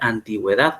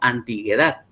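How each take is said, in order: First: The u before the e is sounded. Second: The u before the e is silent. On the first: "la U debe pronunciarse... tiene que decir antigüedad, porque tiene que pronunciarla" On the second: "Si antigüedad no llevara la, la diéresis, nosotros dijéramos antiguedad"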